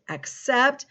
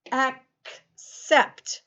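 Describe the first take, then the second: First: Said in the usual way. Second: "accept" broken after a crisp K, then "sept"; split into sounds. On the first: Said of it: "There's something else". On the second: Shown as a demonstration. Teacher letting pupils hear both C sounds, split apart. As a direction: say "accept" in two separated parts, ak, sept. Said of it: "the first C is a K sound".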